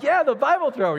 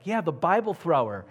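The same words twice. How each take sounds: First: Very high, loud exclamation; excited echo. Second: Higher-pitched, lively retold reply; animated confirmation. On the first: Retold or imitated. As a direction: cry it out in high-pitched amazement. His excited echo of the caller. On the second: Retold caller confirms who it is.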